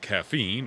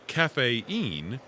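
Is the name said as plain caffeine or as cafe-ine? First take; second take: caffeine; cafe-ine. First: It sounds like the ordinary word caffeine. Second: It sounds like cafe followed by ine. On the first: "can be pronounced as caffeine" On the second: "or cafe-ine, as is customary in Thailand"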